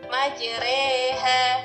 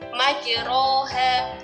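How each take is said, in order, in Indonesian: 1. Vokal setelah 'r' condong ke 'e'. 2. Vokal setelah 'r' adalah 'a' terbuka. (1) "bacaan imala yang harus dimiringkan, maka cara membacanya adalah majreha" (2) "kalau dalam tulisannya ya, di sini adalah majroha"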